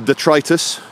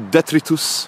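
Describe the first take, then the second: First: It uses the ordinary English pronunciation. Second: It uses a Roman, Latin-style pronunciation.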